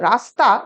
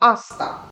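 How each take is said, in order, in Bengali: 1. শব্দটি r ধ্বনি দিয়ে শুরু। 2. শব্দটি স্বরধ্বনি দিয়ে শুরু।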